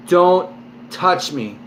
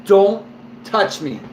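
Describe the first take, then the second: First: Stern warning tone. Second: Said in the usual way. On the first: Retold or imitated. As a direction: warn him off, hard and firm. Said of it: "in that tone". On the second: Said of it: "which means".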